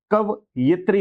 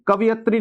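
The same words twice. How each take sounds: First: कवयित्री said "ka-va-yit-ri"; correct pronunciation. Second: कवियत्री said "ka-vi-yat-ri"; wrong pronunciation. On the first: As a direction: put the i after y in कवयित्री, "ka-va-yit-ri". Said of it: "य पर छोटी की मात्रा". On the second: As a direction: put the i after v in कवियत्री, "ka-vi-yat-ri". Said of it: "कवियत्री नहीं होता". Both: Shown as a demonstration.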